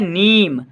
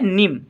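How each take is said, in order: First: The vowel is long and drawn out. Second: The vowel is short and clipped. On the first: The speaker calls it right. "और ये है नीम" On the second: The speaker calls it wrong. "थोड़े कम समय के लिए ध्वनि निकल रही है निम"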